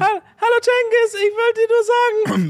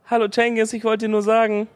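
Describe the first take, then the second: First: It is said in a high-pitched voice. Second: It is said in a medium-pitched voice.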